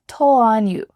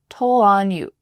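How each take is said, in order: The two takes are said the same way.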